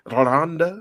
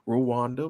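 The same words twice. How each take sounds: First: Rwanda is said in a refined, elegant way. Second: Rwanda is said in a plain, ordinary way. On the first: This is how the reporter says it. The speaker calls it right. "it's Rwanda the way she said it, which was so elegant" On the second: This is how the speaker assumed it was said. The speaker calls it wrong. "I thought Rwanda"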